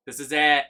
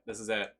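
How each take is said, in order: First: "This is it" shouted louder and higher, stress on "it"; excited shout. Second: Said in the usual way. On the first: Real, not acted. Gamer finds the platform, shouting "This is it". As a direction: yell "This is it" in triumph.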